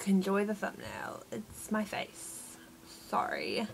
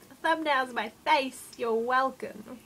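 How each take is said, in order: First: Softer, dropping to a whispered flat "it's my face"; deadpan. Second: Higher, cocky "you're welcome" drawn out slowly; jokey smug. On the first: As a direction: mumble the apology as if embarrassed. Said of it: "a second ago I was like". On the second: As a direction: play it like a proud showman. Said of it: "it's like a jokey mood". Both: Retold or imitated.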